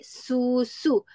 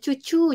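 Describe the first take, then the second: First: The word is said with s sounds. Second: The word is said with ch sounds. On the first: An adult is modelling the word. The speaker calls it right. "Kita pun adik susu" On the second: A young child is mispronouncing the word. The speaker calls it wrong. "anak tu sebut ah, cucu contohnya"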